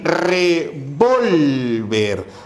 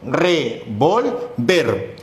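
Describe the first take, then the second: First: The stress is on the middle syllable. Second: The stress is on the last syllable. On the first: "el acento se encuentra en vol" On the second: "el acento está en ver"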